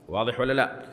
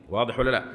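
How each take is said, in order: Both takes have the same delivery.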